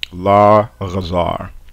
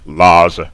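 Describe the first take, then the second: First: The guttural consonant is clearly pronounced. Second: The guttural is dropped and syllables merge. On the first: The speaker calls it right. "we bring back the guttural uh, quality of the phoneme" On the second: The speaker calls it wrong. "You've just completely merged the two syllables into a, you know, one giant class A vowel"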